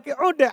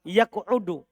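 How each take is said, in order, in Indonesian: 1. Kata kerja itu berakhir tanpa vokal 'u'. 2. Kata kerja itu berakhir dengan vokal 'u'. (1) "Saya baca ja, jazm" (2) "Saya baca rofa"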